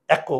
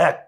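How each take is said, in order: First: এক said with a final "o", "æko"; এক drawn into two syllables, "æ-ko"; wrong vowel-ending pronunciation. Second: এক said as one syllable, "æk"; এক with no vowel after k; silent-vowel pronunciation. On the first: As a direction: add an "o" after the k in এক. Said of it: "হসন্ত না দিলে উচ্চারণ হবে". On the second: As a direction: end এক on a closed k. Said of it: "আমরা বলি এক". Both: Shown as a demonstration.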